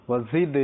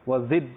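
Both takes have the same delivery.

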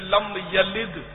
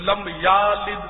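First: The vowel after the 'y' is short. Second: The vowel after the 'y' is lengthened. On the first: The speaker calls it right. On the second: The speaker calls it wrong.

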